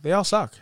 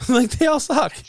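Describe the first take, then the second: First: Said in the usual way. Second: Laughing. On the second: Real, not acted. Repeated with laughter.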